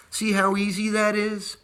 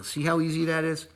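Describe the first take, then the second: First: "that" lifted high and leaned on, whole line higher; higher and brighter, hitting "that" hard; stress on that. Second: Said in the usual way. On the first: Shown as a demonstration. Stressing "that" to viewers, proud of the easy step.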